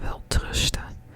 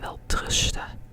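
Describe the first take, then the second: No difference in how they are said.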